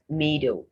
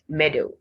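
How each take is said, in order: First: The first vowel is a long 'ee' sound. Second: The first vowel is a short 'eh' sound. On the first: The speaker calls it wrong. "not meadow" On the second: The speaker calls it right. "It's meadow"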